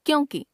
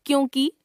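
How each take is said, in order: First: Said in the usual way. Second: क्योंकि ending on long "kee"; mispronounced final vowel. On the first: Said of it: "शुद्ध". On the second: Shown as a demonstration. Teacher showing a common error, क्योंकि with long final vowel. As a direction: stretch the last vowel of क्योंकि. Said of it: "अशुद्ध".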